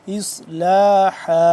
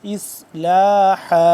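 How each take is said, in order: The two takes are said the same way.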